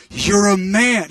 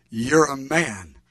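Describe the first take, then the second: First: "You're a man" said louder, with punch; emphatic insistence. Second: "You're a man" drawn out slowly; awed statement. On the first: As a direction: punch out "You're a man" to make him understand. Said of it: "you don't understand". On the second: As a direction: say "You're a man" slowly, weighing each word. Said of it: "I was so excited". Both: Retold or imitated.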